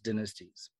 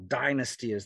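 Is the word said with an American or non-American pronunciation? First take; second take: non-American; American. First: The word has a non-American pronunciation. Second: The word has an American pronunciation.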